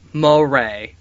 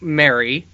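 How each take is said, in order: First: The name is said like 'muh-RAY-ray'. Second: The name is said like 'Mary'. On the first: The speaker calls it right. "the way he says it's pronounced is M U H, and then he put in all caps R A R A Y" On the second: The speaker calls it wrong. "who I was calling Mary"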